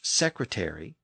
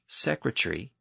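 First: American accent with a full 'airy' ending. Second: British accent with a shortened ending. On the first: "American English secretary" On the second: "British English secretary"

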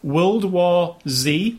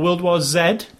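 First: The final letter is pronounced 'zee'. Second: The final letter is pronounced 'zed'. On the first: This is the American way of saying it. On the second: This is the British way of saying it.

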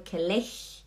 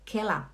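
First: The word ends without an a-like vowel. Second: The word ends in an a-like vowel. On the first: The speaker calls it wrong. "não é Kelech" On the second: The speaker calls it right. "é com A no final"

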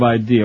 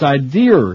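First: The word ends on a plain vowel. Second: The word ends with an added R sound. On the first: The speaker calls it right. "instead of idea" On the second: The speaker calls it wrong. "ideer with an R"

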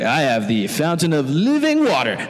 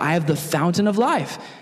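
First: It sounds like a flirtatious pick-up line. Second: It sounds earnest and plain, not flirtatious.

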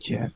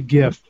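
First: The word begins with a soft j sound. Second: The word begins with a hard g sound. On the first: "I don't say gif. That's peanut butter" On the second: "I say gif"

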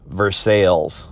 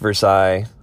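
First: It is said the local Indiana way. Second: It is said the French way. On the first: This is how the Indiana town is called. The speaker calls it right. "we have a town called Versailles" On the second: This is the original French name. The speaker calls it wrong. "but not pronounced Versailles"

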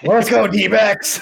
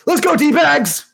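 First: The last word is articulated clearly as 'backs'. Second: The last word is slurred so it sounds like 'bags'.

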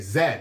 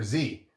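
First: The letter is said the British way, 'zed'. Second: The letter is said the American way, 'zee'.

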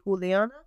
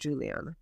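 First: The name is pronounced with Spanish sounds. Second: The name is pronounced with English sounds. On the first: "If you're saying it in Spanish" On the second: "if you're saying it in English"

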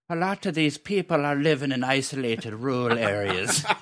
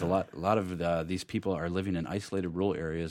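First: It is said in a put-on Irish accent. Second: It is said in the speaker's ordinary accent.

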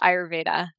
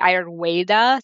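First: The consonant before 'eda' sounds like V. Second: The consonant before 'eda' sounds like W. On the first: "but it is Ayurveda" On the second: "Some people pronounce the V as a W"

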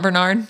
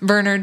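First: The name is said with American pronunciation. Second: The name is said with British pronunciation. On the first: The speaker calls it wrong. "not Bernard" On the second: The speaker calls it right. "the British say Bernard"

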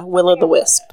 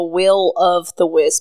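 First: The middle word is reduced to a quick 'o'. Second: The middle word is a full, separate 'of'. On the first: The speaker calls it right. "Say it fast" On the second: The speaker calls it wrong. "Like, the Will of the Wisp, but don't"

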